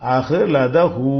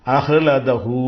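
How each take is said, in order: No difference in how they are said.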